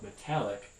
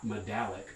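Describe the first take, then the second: First: The middle consonant is a voiceless t. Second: The middle consonant is a voiced d. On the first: The speaker calls it right. "underlyingly a voiceless stop" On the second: The speaker calls it wrong. "not medallic"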